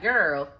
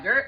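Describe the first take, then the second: First: Put-on "Girl" with a falling tune, as a weary expression. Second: Put-on "Girl" with a rising tune, like a pointed call. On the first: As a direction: let "Girl" drop at the end, just an exclamation. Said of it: "I'm just saying it as an expression". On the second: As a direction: say "Girl" going up at the end. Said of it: "not girl like, girl, but I'm just saying it as an expression".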